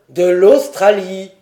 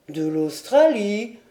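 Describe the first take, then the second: First: Loud, slow, vehement interruption; vehement cry. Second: Slow, puzzled rising question; wide-eyed repetition. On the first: Lord cutting off the old sailor, vehement. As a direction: break in forcefully, drawn out. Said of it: "s'écria Glenarvan avec une véhémence". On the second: Old sailor repeating his lord's word, baffled. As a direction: echo it slowly, baffled. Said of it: "répéta Tom en ouvrant les yeux". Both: A narrator's reading.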